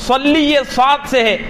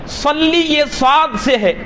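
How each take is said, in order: Both takes have the same delivery.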